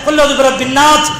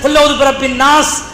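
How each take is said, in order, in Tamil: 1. கடைசிச் சொல் th ஒலியில் முடிகிறது. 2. கடைசிச் சொல் s ஒலியில் முடிகிறது.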